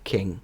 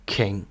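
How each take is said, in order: Both takes have the same delivery.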